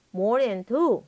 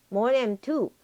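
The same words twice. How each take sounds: The two takes are said the same way.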